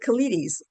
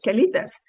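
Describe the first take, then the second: First: It is said like the English word colitis. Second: It is said with Spanish pronunciation. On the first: The speaker calls it wrong. "I pronounced it colitis" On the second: The speaker calls it right. "that's how you say it in Spanish"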